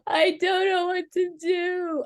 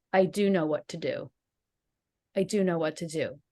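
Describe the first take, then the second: First: High, slow, hopeless plea; despairing. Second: Lower, firm, settled repetition; steady resolve. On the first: Lying on the bed after the fight, saying it in despair. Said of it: "I must have said that a hundred times". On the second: After the fight she calms herself with steady resolve. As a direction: say it calmly, as if finding your footing. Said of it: "And I just started saying". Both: Retold or imitated.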